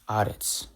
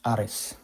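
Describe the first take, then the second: First: The word ends with a sharp ts sound. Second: The word ends with a plain s sound. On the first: "when you hear the sharp tz sound" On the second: "if I pronounce it tzadi as sali, then it'll be ares"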